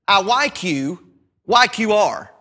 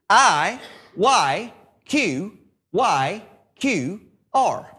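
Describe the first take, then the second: First: The letters are read quickly, run together. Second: The letters are read slowly, one by one.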